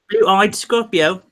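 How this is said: It is said in a put-on English accent.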